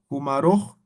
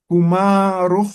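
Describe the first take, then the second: First: Said in the usual way. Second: Humaruj drawn out slowly and louder, rising at the end; slow, careful Humaruj. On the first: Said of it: "repeats the word at normal pace". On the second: Shown as a demonstration. Teacher modelling Humaruj slowly for the class. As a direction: model Humaruj syllable by syllable for students. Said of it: "teacher models the word slowly".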